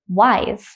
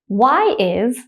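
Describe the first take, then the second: First: The two words merge into one contracted syllable. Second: Both words are said fully and separately.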